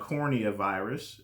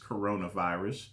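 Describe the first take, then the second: First: The word begins with 'cornea', two syllables. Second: The word begins with 'corona', three syllables. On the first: The speaker calls it wrong. "I try to mispronounce it" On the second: The speaker calls it right. "I know it's coronavirus"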